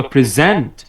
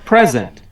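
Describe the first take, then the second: First: present stressed on ZENT, light first syllable; stress on second syllable. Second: present stressed on PRE, falling away after; stress on first syllable. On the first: Teacher giving a child present to repeat, last syllable stressed. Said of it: "পরের অংশে জোর দিয়েছি". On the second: Teacher giving a child present to repeat, first syllable stressed. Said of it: "প্রথম অংশে জোর দিয়েছি". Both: Shown as a demonstration.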